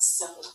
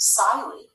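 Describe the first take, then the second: First: The first vowel is short. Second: The first vowel is long. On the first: The speaker calls it right. "We want silly" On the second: The speaker calls it wrong. "If I didn't have that L there, the word would be pronounced silly, and that's not the word we want"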